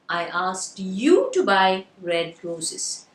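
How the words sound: The word "you" is stressed. "So the stress is on the word. Very good. You"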